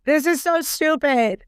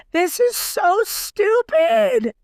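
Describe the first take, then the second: First: Said in the usual way. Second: Exasperated outburst. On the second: Real, not acted. Exasperated rant about storyline.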